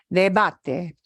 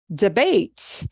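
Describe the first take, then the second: First: It is said with a Spanish pronunciation. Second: It is said with an English pronunciation. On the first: The speaker calls it right. "it's pronounced debate" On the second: The speaker calls it wrong. "No es debate"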